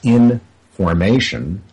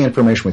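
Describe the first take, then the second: First: The word is split in two with a break. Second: The word is said smoothly as one unit. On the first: Something in a constant state of evolution. "if you break that word in two" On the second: A static, dusty stack of data. "we say information"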